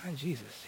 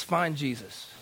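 First: Much softer, near-whispered echo; hushed questioning. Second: Said in the usual way. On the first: Retold or imitated. Client echoing the counselor's odd instruction, hushed question. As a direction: echo it back under your breath, puzzled. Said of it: "I was like". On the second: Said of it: "He says".

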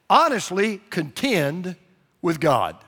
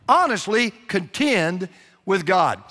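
First: Honestly and contend drawn out slowly; slow emphatic charge. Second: "Honestly" leaned on, then a slow falling "contend with God"; repeated for emphasis. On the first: Preacher slowly charging the congregation to honestly contend. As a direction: press each word of "Honestly contend" like a command. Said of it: "here's the first thing I want you to do". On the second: Preacher repeating his charge so no one misses it. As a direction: say "Honestly contend with God" slowly and firmly, landing on each word. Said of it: "you heard me". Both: Shown as a demonstration.

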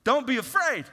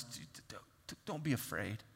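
First: Preached command. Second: Stammering softly. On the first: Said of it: "Moses told the people". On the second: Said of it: "someone's telling us". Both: Retold or imitated.

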